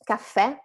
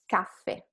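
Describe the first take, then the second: First: Caffè stressed and rising on the final È; accent on last syllable. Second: Caffè stressed on CAF, dropping away; without the accent. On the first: Teacher shows the accent, caffè rising at the end. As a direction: lift and punch the end of caffè. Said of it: "with the accent". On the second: Teacher shows it without accent, caffè weak at the end. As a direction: let the final E of caffè fall unstressed. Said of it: "without the accent". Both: Shown as a demonstration.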